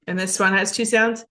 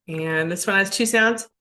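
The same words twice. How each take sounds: The two takes are said the same way.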